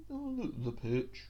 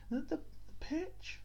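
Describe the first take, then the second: First: Said in the usual way. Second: "pitch" said in a sudden high squeak; high pitch demo. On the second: Shown as a demonstration. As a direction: pitch jumps way up on "pitch". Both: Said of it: "the speed at which you speak".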